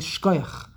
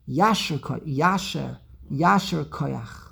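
First: The phrase is squeezed into one short word. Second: The phrase is said partly shortened, two words. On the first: The speaker sounds more yeshivish. "if you want to sound more yeshivish" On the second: The speaker sounds somewhere in between. "if you're somewhere in the middle"

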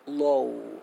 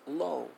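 First: The vowel sound is drawn out longer. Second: The vowel sound is kept shorter.

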